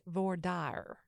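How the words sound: Dire is two syllables, with a Texan twang. "With the twang. Yes, dire is two syllables, not one"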